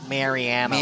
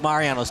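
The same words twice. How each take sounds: First: It is said the local Chicago way. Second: It is said the standard, non-local way. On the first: The speaker calls it wrong. "Don't be a Chicagoan and try to pronounce it" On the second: The speaker calls it right. "And it's Mariano's"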